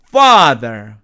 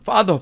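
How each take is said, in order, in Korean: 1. 영어식 긴 모음으로 발음했어요. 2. 한국식으로 발음했어요.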